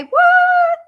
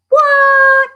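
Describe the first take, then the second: First: Even higher, squeaky mock shock; hammed-up incredulous squeak; squeaky disbelief. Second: High, loud shocked yelp; mock astonishment, loud and high; shocked what. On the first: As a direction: squeal it like you can't believe it. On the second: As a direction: gasp it out in disbelief. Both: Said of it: "That's what I'd say".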